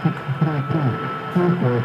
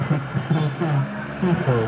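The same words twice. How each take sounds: The two takes are said the same way.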